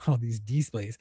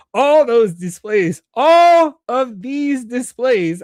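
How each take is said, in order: First: Said in the usual way. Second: Loud, high, drawn-out words; exaggerated re-reading. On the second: Real, not acted. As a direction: stretch it out in a slow playful shout. Exaggerated retakes after misreading a line.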